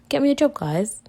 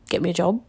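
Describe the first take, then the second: First: High, cheeky plea to the listeners; playful demand. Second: Said in the usual way. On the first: Acted. Teasing her podcast listeners to find her work, high and playful. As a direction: toss it up high like a teasing ask.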